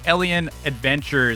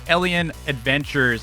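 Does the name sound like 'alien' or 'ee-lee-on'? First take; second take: alien; alien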